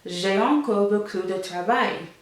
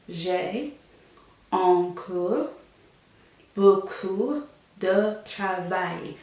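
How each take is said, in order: First: The phrase is said smoothly in one go. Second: The phrase is split into separate pieces.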